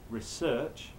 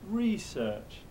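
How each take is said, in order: First: It has the British English stress pattern. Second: It has the American English stress pattern. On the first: "British English, we normally talk about doing research" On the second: "But if you're American, you go research"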